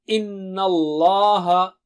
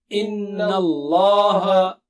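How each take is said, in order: No difference in how they are said.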